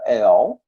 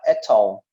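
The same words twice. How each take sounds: First: "at all" with the T flapped like a quick R, American style; American English demo, flapped T. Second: "at all" with a crisp, fully sounded T, British style; British English demo, clear T. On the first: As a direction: say "at all" the American way, T turned to a tapped R. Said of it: "na pronúncia americana, eles fazem esse T ao som de um R". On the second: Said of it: "Na britânica". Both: Shown as a demonstration.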